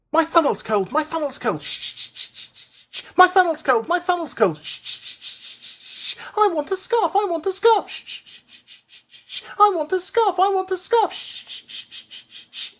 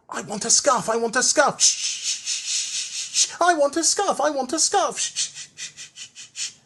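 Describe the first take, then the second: First: High little engine chanting, puffs of steam whispered between; chanted, sing-song complaint with hissing shh puffs; Percy puffing chant. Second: Higher engine chant with whispered shh puffs; Percy still puffing. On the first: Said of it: "he would say as he puffed about the yard". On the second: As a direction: keep puffing the scarf chant as he works. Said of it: "still puffing". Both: A narrator's reading.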